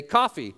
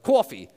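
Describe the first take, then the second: First: Said in the usual way. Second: Mock New York "cawfee"; higher, louder, exaggerated New York vowel; New York accent. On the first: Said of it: "say coffee". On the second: Suspected New Yorker told to say coffee, New York accent. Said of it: "someone's from New York".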